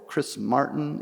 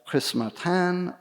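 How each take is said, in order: First: The name is pronounced with an English accent. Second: The name is pronounced with a non-English accent.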